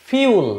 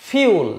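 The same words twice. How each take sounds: Both takes have the same delivery.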